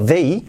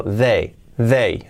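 First: "they" ending in a drawn-out, rising EE; over-glided ending. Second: "they" leaning on E, falling, little glide; more E. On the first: Teacher shows what to avoid, "they" with long EE glide. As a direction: stretch "they" into a clear final I. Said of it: "Fijaos que no digo". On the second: Teacher shows the preferred form, "they" resting on E. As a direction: keep "they" on the E sound. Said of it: "un poco más deje en E". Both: Shown as a demonstration.

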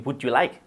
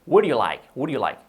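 First: "Would you" with a hard consonant breaking the link; unlinked error. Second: "Would you like" run together as one word; fluid linking. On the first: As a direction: say "Would you like" stiffly, like "boot you like". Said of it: "Pero vamos a decir". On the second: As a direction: glide "Would" straight into "you like". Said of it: "siempre muy fluido". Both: Shown as a demonstration.

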